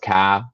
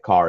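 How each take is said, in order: First: The final R sound is dropped. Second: The final R sound is pronounced.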